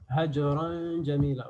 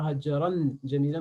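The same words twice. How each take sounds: First: "Hajran jamila" with a held nasal hum before the "j"; slow "Hajran jamila", nasalised join; ikhfa. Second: "hajran jamila" with a plain, fully sounded "n"; counter-example, no held hum in "hajran jamila"; wrong, without ikhfa. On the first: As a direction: stretch the hidden "n" of "Hajran" into "jamila". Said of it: "on va préparer ikhfa". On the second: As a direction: say "hajran" with a crisp n, then "jamila". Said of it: "On ne dit pas". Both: Shown as a demonstration.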